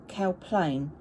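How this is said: The stress falls on the second word. This is how locals say the name. The speaker calls it right. "they call it, it's called Cow Plain ... you put the emphasis on the second half of the place name"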